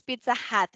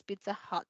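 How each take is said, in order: First: "Hut" with open a, like "hat"; open-A mispronunciation. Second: "Hut" with short, barely open uh; softer "Pizza Hut", short uh in "Hut"; schwa pronunciation. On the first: Teacher showing what it is not, "Hut" with open a. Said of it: "O sea, no es Pizza Hut". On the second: Teacher showing the correct name, "Hut" with schwa. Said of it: "es Pizza Hut". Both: Shown as a demonstration.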